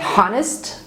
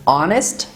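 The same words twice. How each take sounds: First: The word starts with an audible H sound. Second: The word starts with a vowel, no H sound. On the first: The speaker calls it wrong. "not honest" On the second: The speaker calls it right. "This is honest"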